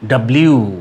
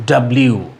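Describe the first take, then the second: Both takes have the same delivery.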